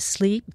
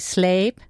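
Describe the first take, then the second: First: It is said with a standard 'ee' vowel. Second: It is said with a Texas 'ay' vowel.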